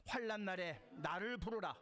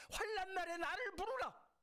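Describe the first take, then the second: First: Said in the usual way. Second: High, loud proclamation of 부르라 with a falling end; climactic cry. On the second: Shown as a demonstration. Pastor crying the verse out to the congregation, loud and high. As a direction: shout the verse as the peak of the sermon. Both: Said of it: "함께 읽겠습니다".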